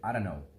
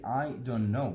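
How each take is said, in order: First: The words are run together and reduced. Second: Each word is said fully and separately. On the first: "but Americans say I don't know" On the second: "We say I don't know"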